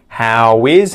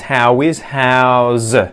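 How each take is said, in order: First: Both words are said separately in full. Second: The words merge into one syllable with z. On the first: "So we obviously do this as how is" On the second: "contracting is onto the word how"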